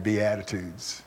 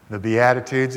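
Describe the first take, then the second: First: "Beatitudes" said slow and soft, like Be-attitudes; punning on attitude. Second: Said in the usual way. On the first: Shown as a demonstration. Preacher to congregation, "Beatitudes" said softly as Be-attitudes. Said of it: "you have the right attitude". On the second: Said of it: "if you be this, you have the right attitude".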